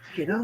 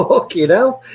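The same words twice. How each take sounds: First: Fucking hell said softly and high, half to himself; stunned mutter. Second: Fucking hell thrown up high in mock shock; shocked exclaim. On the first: Retold or imitated. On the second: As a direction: pitch "Fucking hell" up high, a retold jolt of disbelief. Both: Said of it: "I was like".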